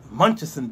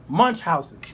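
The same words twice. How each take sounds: First: The ending is not said as 'housen'. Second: The ending is said as 'housen'. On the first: The speaker calls it wrong. "I'm saying it wrong" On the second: The speaker calls it right. "Thank you. I knew I was saying it wrong"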